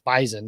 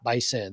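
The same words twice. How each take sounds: First: The middle consonant sounds like a z. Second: The middle consonant sounds like an s. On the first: The speaker calls it right. "which is how you say it" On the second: The speaker calls it wrong. "not Bison"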